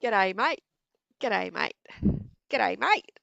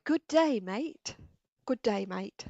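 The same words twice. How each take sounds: First: Loud, clipped Aussie "G'day, mate"; Aussie accent. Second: Loud, careful "Good day, mate" fully spelt out; proper English. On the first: Asked to greet like an Aussie, loud Aussie accent. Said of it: "Now say". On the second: Answering the Aussie version, proper English enunciation. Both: Shown as a demonstration.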